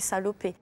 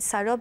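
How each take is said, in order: First: The name ends with a final 'ay' vowel. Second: The name ends without a final vowel sound. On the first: The speaker calls it right. "je mets un accent" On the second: The speaker calls it wrong. "certains profs disaient Delphine salope"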